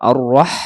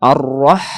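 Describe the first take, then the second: No difference in how they are said.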